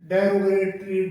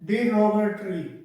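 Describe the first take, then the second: First: The first syllable sounds like 'deh'. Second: The first syllable sounds like 'dih'. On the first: The speaker calls it wrong. "इसको डेरोगेटरी बोला जाता है mostly" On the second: The speaker calls it right. "इसका सही जो pronunciation होता है डिरोगेटरी"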